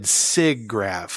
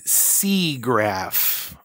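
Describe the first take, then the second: First: The first vowel is a short I sound. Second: The first vowel is a long E sound. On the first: This is how the speaker has always said it. "like an I instead of an E" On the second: This is how the other person says it. "You keep saying Seagraph"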